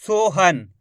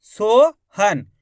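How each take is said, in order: First: Said in the usual way. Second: "Sohan" stretched as two slow syllables; "Sohan" broken up slowly and louder; split into syllables. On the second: Shown as a demonstration. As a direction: draw out "Sohan" as a long rising so, then han. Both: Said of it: "शब्द को अच्छी तरीके से सुन लो".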